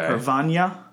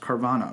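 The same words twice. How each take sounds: First: The middle consonant is a ny sound. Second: The middle consonant is a plain n sound. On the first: "it has the equivalent of an Enye sound from Spanish" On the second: "That's probably how most people pronounce it"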